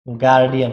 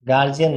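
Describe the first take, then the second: First: The middle consonant is a d sound. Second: The middle consonant is a j sound. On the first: The speaker calls it right. "गार्डियन होता है" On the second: The speaker calls it wrong. "गार्जियन नहीं होता ये"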